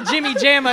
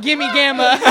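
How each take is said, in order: First: Said in the usual way. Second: "Gimme Gamma" with hard g's, louder; misspelt with G. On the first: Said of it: "not a J". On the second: Shown as a demonstration. Mocking the bad speller, "Gimme Gamma" with two hard g's. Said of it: "He probably spelt it with a G".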